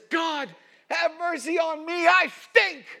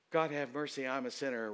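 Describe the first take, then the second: First: High, loud, pleading shout; full-throated anguished plea; desperate cry for mercy. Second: Said in the usual way. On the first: Retold or imitated. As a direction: cry out to God like a man at the end of himself. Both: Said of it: "And he says".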